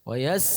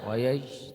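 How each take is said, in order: First: The s is said with a sharp, clear hiss. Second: The s is barely heard, with no hiss. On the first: The speaker calls it right. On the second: The speaker calls it wrong. "tak bunyi sinnya"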